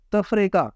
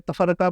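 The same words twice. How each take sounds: First: تفریقہ said as taf-re-qa; corrected vowels. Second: تفرقہ said as ta-far-qa; common mispronunciation. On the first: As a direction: close "taf", then "re" in تفریقہ. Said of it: "فے کے اوپر جزم ہے". (تفریقہ میں فے ساکن، رے کے نیچے زیر) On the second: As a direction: open second syllable "far" in تفرقہ. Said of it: "یہ تفرقہ نہیں ہے". (تفرقہ میں فے پر زبر کے ساتھ) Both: Shown as a demonstration.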